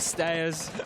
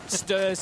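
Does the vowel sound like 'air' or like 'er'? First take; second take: air; er. First: The vowel sounds like 'air'. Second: The vowel sounds like 'er'.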